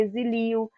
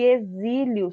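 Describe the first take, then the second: First: "exilio" read without the accent, stress on LI, e-xi-LI-o; wrong stress. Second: "exílio" stressed on the Í, e-XÍ-lio, drawn out slowly; correct stress. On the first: Teacher showing the misreading without the accent, stress e-xi-LI-o. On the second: Teacher showing students the accented word, slow e-XÍ-lio. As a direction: lean on the Í of "exílio", unhurried. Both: Shown as a demonstration. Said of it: "se não tivesse o acento".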